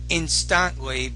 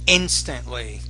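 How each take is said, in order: First: The stress falls on an unexpected syllable. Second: The stress falls on the expected syllable. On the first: The speaker calls it wrong. "Not instantly" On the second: The speaker calls it right. "but instantly"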